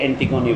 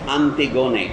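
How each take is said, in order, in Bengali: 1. নামটি ইংরেজি উচ্চারণে বলা হয়েছে। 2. নামটি গ্রিক উচ্চারণে বলা হয়েছে। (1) "ইংরেজিতে অ্যান্টিগোনি বলেন আপনারা" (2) "আমি গ্রিক উচ্চারণে বলছি"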